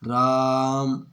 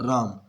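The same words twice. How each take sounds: First: The vowel is stretched out very long. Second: The vowel is said short and quick. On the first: The speaker calls it right. "ऐसे करेंगे, इतना लंबा बोलना पड़ेगा ना" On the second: The speaker calls it wrong. "जल्दी से हो गया"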